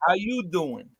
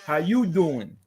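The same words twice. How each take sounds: First: Smooth, flirty Joey How you doing; Joey's pickup line. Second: Smooth Joey from Friends How you doing; Joey's pickup line. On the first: Joey repeats the line for friends, flirty. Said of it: "that was a panty dropper for Joey". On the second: Joey practices the Friends line, smooth flirt. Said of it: "did you practice". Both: Shown as a demonstration.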